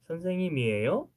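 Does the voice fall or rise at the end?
rise. It ends with a rising question tune.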